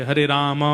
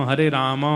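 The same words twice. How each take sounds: Both takes have the same delivery.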